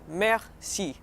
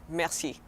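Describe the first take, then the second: First: "merci" split slowly as mer, ci; syllable by syllable. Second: Said in the usual way. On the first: Shown as a demonstration. Teacher showing learners thank you, slow split "merci". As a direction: draw out "merci" in two separate beats. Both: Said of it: "So say thank you".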